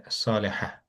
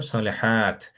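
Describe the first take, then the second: First: "সালেহা" ending in "ha" with no t; round ta as h. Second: "সালেহাত" with the final t fully sounded; long ta sounded. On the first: Teacher contrasts round ta, "সালেহা" ending "ha" without t. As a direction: drop the t, end "সালেহা" on an h-like "ha". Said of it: "But এটা হচ্ছে সালেহা". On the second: Teacher explains long ta, "সালেহাত" ending on a sounded t. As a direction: close "সালেহাত" on a clear t after long "haa". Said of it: "উচ্চারণ হবে". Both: Shown as a demonstration.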